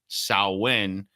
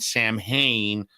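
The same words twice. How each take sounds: First: The word is said in its real spoken form. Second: The word is read letter by letter as spelled. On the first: "but pronounced Samhain" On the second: "It's written Samhain"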